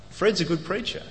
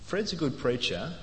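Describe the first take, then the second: First: It is said as plain, wholehearted praise. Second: It is said hedging, as if a 'but' follows. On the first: The praise is meant fully. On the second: There is an unspoken reservation about the preaching.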